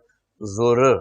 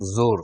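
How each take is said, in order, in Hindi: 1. जोर शब्द के अंतिम हिस्से पर पड़ता है। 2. जोर शब्द के शुरुआती हिस्से पर पड़ता है। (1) "अब क्या हो गया" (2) "इसमें जो पर ज्यादा जोर है"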